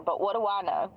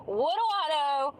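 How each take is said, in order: First: Said in the usual way. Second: Mock innocence. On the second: Repeated mock question.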